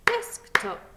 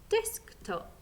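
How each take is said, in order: First: Desktop in two loud beats, DESK-TOP, high on DESK; clapped syllables. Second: Said in the usual way. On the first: Shown as a demonstration. Teacher claps the word with learners, Desktop beaten out loudly. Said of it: "Let's clap that word". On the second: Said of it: "sounding it out".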